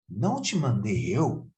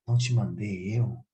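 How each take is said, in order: First: It is said in a firm, commanding tone. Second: It is said in a soft, gentle tone. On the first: It is a stern order. "você pode até imaginar que uma forma imperativa" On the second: It is a loving encouragement. "com um tom suave, uma, como uma brisa"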